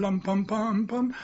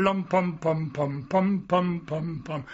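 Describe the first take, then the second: First: Slow lum-pum chant rising at the end; humming the anthem. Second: Humming the overture. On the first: Old soldier humming the anthem the band played. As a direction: hum the anthem phrase gently, lifting up. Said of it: "Then they played the national anthem". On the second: Old soldier humming the overture he heard as a boy. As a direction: hum the brass line slowly, falling away. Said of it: "there's a place where you go". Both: Retold or imitated.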